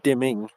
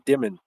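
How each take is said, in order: First: The word has a standard, non-local pronunciation. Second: The word has a local regional pronunciation. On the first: "not dimming" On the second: "as we say around here"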